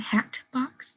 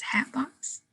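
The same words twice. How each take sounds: First: "hat box" with the T fully released; unassimilated T. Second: "hat box" run together as "hap box", higher and softer; assimilated T. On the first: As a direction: separate "hat" and "box" with a clear T. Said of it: "So it's not". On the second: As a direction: let the T of "hat" merge into the b. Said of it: "it's hat box". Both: Shown as a demonstration.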